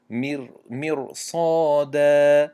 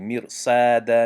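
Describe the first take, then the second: First: مرصادا slow, with a full sad and a rounded a; مرصادا with a heavy sad. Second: مرصادا with a flat thin a; مرصادا with a light flat a; wrong thin sad. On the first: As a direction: open the a in مرصادا. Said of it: "آ گفتیم". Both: Shown as a demonstration.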